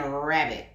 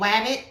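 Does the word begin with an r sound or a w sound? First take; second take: r sound; w sound. First: The word begins with an r sound. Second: The word begins with a w sound. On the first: The speaker calls it right. "or are you saying rabbit?" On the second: The speaker calls it wrong. "are you saying wabbit"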